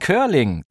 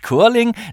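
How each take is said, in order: First: The word is said with English sounds. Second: The word is read with German spelling sounds. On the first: The speaker calls it right. "sondern Curling. Das kommt aus dem Englischen" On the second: The speaker calls it wrong. "Das heißt nicht Curling"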